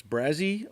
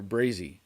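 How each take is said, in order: First: "Brazy" tried out with a rising, questioning end; first pronunciation guess. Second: "Brazy" as the other option, with a falling end; alternative pronunciation guess. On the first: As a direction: offer "Brazy" as an unsure first reading, pitch climbing. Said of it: "I don't know if that's". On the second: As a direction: offer "Brazy" as the second reading, pitch coming down. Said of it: "how you're supposed to say that". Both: Shown as a demonstration.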